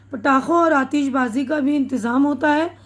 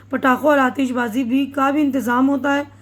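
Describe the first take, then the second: No difference in how they are said.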